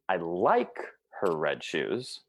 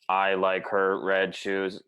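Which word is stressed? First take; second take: like; none. First: The second word carries the stress. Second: It is flat, with no word stressed. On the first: They are liked but not loved. "Or second word" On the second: It could mean anything. "I'll be a robot, right? All one"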